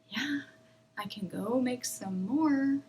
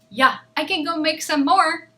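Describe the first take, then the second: First: Each word is slow, calm and bouncy. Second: The words are louder and faster, sounding angry. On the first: The speaker is at ease. "each word is going to be slow and calm" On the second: The speaker is upset. "if I'm angry, I'm going to be a little louder and a little faster"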